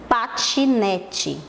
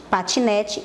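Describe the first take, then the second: First: "Patinete" very slowly, split into pa-ti-ne-te; drawn-out, teacherly breakdown of "Patinete"; syllable by syllable. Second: Said in the usual way. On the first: Shown as a demonstration. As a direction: sound out all four syllables of "Patinete". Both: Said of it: "ele tem quatro sílabas".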